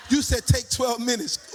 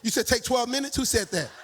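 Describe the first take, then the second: First: Loud, laughing statement with YOU pushed; triumphant laughing retort; laughing declaration. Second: Rising, doubtful ask on twelve; puzzled question to the congregation; surprised question. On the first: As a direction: crow it back with a laugh. Laughing confirmation of the time. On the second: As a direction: check the time in disbelief. Questioning the time given. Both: Real, not acted.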